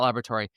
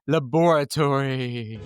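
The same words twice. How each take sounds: First: The word is said in a plain, ordinary way. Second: The word is said in a spooky, dramatic way. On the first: The speaker calls it wrong. "Not laboratory" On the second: The speaker calls it right. "Scary times require us to say laboratory"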